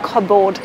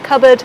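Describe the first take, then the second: First: The vowels are not reduced to schwa. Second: Both vowels are reduced to schwa. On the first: The speaker calls it wrong. "not cupboard" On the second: The speaker calls it right. "It's got two schwas"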